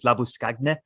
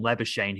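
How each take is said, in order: First: The name has its South African pronunciation. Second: The name has its Australian pronunciation. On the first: "referred to him as Labuschagne" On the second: "you guys call him Labuschagne here"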